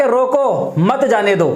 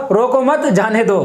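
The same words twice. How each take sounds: First: "रोको" drawn out, break, then "मत जाने दो" together; pause after रोको. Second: "रोको मत" run together, break, then "जाने दो"; pause after मत. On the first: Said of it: "कहने वाला कहना चाह रहा है". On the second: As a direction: join मत to रोको, then set जाने दो apart. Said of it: "क्या सुनेगा?". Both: Shown as a demonstration.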